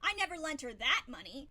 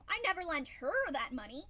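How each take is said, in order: First: The stress falls on the word that. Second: The stress falls on the word her. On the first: Different money was lent. "meaning I lent her money, but not the money that you're talking about" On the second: Someone else received the money. "but I lent it to somebody else"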